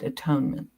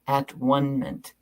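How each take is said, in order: First: It is said smoothly as one ordinary word. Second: It is split into three separate syllables. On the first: It is the usual religious term. "often pronounced atonement" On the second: It means being at one with God. "doctrine called the at-one-ment"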